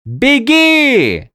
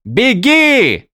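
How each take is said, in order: First: Loud high far yell. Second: Loud high yell. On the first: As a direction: yell it again urgently. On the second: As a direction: yell at her to run. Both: Acted. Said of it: "заорал Виндель".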